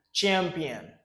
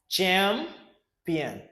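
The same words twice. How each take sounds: First: Said in the usual way. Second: "Champion" split as "cham", long pause, "pion"; "Champion" broken up for learners to repeat; syllable by syllable. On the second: Shown as a demonstration. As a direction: model "Champion" in two separated chunks. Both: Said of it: "Repeat after me".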